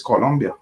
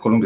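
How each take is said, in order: First: Colombia with a clear O: "co-LOM-bia"; corrected pronunciation. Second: Colombia with a U: "co-LUM-bia"; mispronounced Colombia. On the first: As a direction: say Colombia the local way, O in the middle. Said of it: "it's Colombia". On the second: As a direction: say Colombia like Columbia, as the wrong example. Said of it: "It's not Colombia". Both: Shown as a demonstration.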